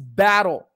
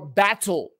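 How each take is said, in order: First: It is said with an American accent. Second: It is said with a British accent.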